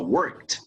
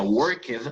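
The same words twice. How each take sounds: First: The -ed ending adds no extra syllable. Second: The -ed ending is sounded as an extra syllable. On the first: The speaker calls it right. "sino se pronuncia worked" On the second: The speaker calls it wrong. "no se pronuncia worked, aunque así se escribe"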